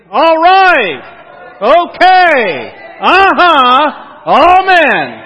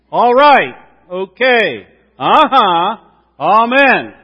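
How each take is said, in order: First: Full-voice, high revival shout; enthusiastic shout. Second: Loud, eager church call-and-response; enthusiastic. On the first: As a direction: shout it out to the rafters. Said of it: "do it with some enthusiasm". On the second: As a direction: pump it up like a revival. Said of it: "let me hear you that with some enthusiasm". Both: Shown as a demonstration.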